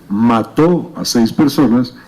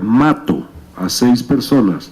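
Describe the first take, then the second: First: The stress is on the last syllable of mató. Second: The stress is on the first syllable of mato. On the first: He killed six people. The speaker calls it right. "quisieron decir" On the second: He kills six people. The speaker calls it wrong. "si quiero reproducir sonoramente lo que está escrito"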